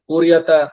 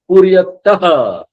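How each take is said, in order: First: The final vowel is dropped, ending in a consonant. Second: The final vowel ends with an added breathy h. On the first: This is how it would be read in Hindi. The speaker calls it wrong. "अगर ये हिंदी पढ़ते तो हम क्या बोलते हैं" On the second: A visarga is written at the end. The speaker calls it right. "और थोड़ा जोर देंगे अह"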